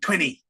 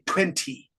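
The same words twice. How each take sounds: First: It is said in an American accent, soft T. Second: It is said in a British accent, strong T. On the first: "if you hear Americans, they say twenty" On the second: "British say twenty"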